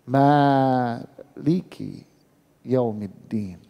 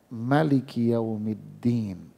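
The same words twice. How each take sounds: First: The vowel after the m is long. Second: The vowel after the m is short. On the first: This is the reading used every day. "dibaca mimnya panjang" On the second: This is how most reciters read it. "Pendek mimnya"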